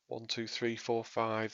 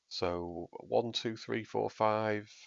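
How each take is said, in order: First: The voice goes through the clarity EQ preset. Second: The voice goes through the signature EQ preset. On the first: "This is the clarity preset" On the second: "This is the signature sound that I've got now"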